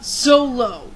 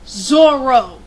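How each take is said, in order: First: The middle consonant is an L sound. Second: The middle consonant is an R sound. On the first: The speaker calls it wrong. "not Zolo" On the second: The speaker calls it right. "that's how they all pronounce it in the anime"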